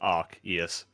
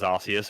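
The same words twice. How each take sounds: First: The C is said with a hard k sound. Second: The C is said with a soft s sound. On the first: This is the official pronunciation. "the official pronunciation is Arceus" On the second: This is how people used to say it. "with a soft C"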